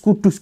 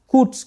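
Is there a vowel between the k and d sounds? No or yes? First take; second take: Yes; No. First: A vowel separates the k and d sounds. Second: The k and d sounds are joined without a vowel. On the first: This is how Javanese speakers adapted the name. "pengucapan lidah Jawa" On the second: This is the original Arabic form of the name. "kalau misalkan bilang Al-Quds itu agak ribet"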